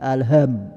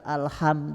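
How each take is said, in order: First: The h is a light, plain breathy sound. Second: The h is a harsh sound from the throat. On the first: "menjadi alham, salah besar tuh" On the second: "kita itu membaca alham"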